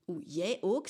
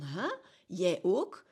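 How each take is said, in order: First: Retelling a friend's astonished "Oeh, jij ook?", a bit louder; mock astonishment, as if a big secret just came out; surprised. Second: Loud, incredulous "Huh? Jij ook?" imitating the friend; very surprised. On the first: Friend on the phone reacting to news of therapy, surprised. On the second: Friend hearing she also sees a relationship therapist, amazed and loud. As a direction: replay his shock, louder and more amazed. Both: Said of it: "En hij zegt dat zo heel verbaasd".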